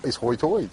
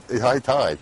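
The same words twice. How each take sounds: First: "hoy toy" with oy sounds for high tide; "hoy toy" in a down east brogue. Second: Said in the usual way. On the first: Shown as a demonstration. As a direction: say "hoy toy" the Outer Banks way. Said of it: "The hoy, it's high tide".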